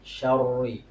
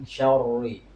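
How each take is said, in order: Both takes have the same delivery.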